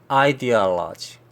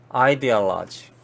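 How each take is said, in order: Both takes have the same delivery.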